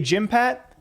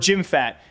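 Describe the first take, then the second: First: The second syllable starts with a p sound. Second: The second syllable starts with an f sound. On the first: This is how other people say it. "I've heard people say Jim Pat" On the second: This follows the spelling of the name. "when it comes to spelling, I want to say Jim Fat"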